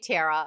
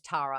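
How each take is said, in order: First: The name is said in an American accent. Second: The name is said in an Australian accent. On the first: This is how Americans say the name back. The speaker calls it wrong. "Tara in American sounds like terror" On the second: This is how the speaker says her own name. The speaker calls it right. "hi, my name's Tara"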